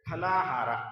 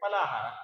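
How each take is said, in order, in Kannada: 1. ಮೊದಲ ವ್ಯಂಜನದಲ್ಲಿ ಉಸಿರಿನ ಹೊಡೆತ ಇದೆ. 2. ಮೊದಲ ವ್ಯಂಜನ ಉಸಿರಿಲ್ಲದೆ ಸರಳವಾಗಿದೆ. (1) "ಇದರ ಉಚ್ಚಾರಣೆ ಹೇಗಿರಬೇಕು ಅಂದ್ರೆ" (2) "ಆದ್ರೆ ತುಂಬಾ ಜನ ಉಚ್ಚಾರಣೆ ಮಾಡೋದು ಹೇಗೆ ಅಂದ್ರೆ"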